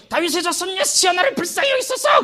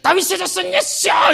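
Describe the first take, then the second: First: High calling-out plea; raised, high shout for mercy; blind man's cry. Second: High, slow, full-voiced cry; louder shout. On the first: Acted. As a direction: call out to Jesus from the roadside. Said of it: "더 크게 소리 질러". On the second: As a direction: shout it even louder over the crowd. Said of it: "뒤에 더 크게 소리 질러".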